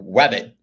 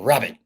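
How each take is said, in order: First: The word begins with a W sound. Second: The word begins with an R sound.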